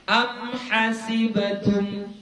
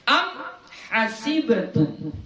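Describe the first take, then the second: Both takes have the same delivery.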